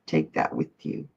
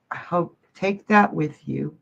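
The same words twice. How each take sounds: First: Soft unvoiced whisper, much lower. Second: Said in the usual way. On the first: Real, not acted. Whispering a parting blessing to a grieving viewer. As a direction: breathe it out like a secret blessing. Repeats comforting phrase to viewer.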